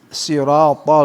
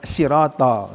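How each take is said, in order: First: The first consonant is heavy with raised tongue. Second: The first consonant is light with spread lips. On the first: The speaker calls it right. "al-isti'la, naik" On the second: The speaker calls it wrong. "bukan sirotol"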